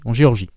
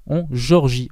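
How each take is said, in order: First: Said in the usual way. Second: "Géorgie" said the English way, like Georgia; "Géorgie" pronounced as English Georgia; English-style Georgia. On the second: Real, not acted. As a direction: slip into English on "Géorgie" before correcting. Corrects himself on place name.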